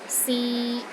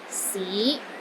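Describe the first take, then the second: First: The pitch stays steady in the middle. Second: The pitch rises from low to middle. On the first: To try. "a mid-tone. It's pronounced in the middle of your range and it is steady" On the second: City. "It starts low, then rises to the middle of your range"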